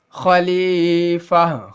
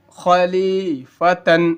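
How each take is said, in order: First: خلیفہ slowly recited, ending in a breathed "fah"; pausal ending. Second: خلیفتن slowly recited, ending in a sounded "tan"; full tanween ending. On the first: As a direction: stretch "lee" in خلیفہ and stop on a silent-vowel h. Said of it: "جب بھی وقفہ کرتے ہیں تو کیا ہوتا ہے؟". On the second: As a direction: stretch "lee" in خلیفتن and finish on "-fatan". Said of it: "تا دو زبر تن". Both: Shown as a demonstration.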